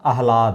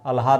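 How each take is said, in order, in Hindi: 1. 'h' 'l' से पहले आता है। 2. 'l' 'h' से पहले आता है। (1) "आह्लाद होता है" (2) "अल्हाद नहीं होता"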